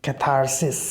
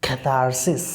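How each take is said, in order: First: The r after the first vowel is pronounced. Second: The same.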